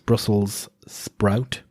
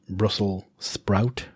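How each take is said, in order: First: Brussels ends with a clear s sound. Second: Brussels is said without the final s. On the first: The speaker calls it right. "it's Brussels sprout" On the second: The speaker calls it wrong. "not Brussels sprout"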